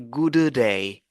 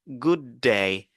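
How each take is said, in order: First: Both d sounds are said separately. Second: The two d sounds merge into one. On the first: The speaker calls it wrong. "On ne va pas dire good day" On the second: The speaker calls it right. "On va dire good day"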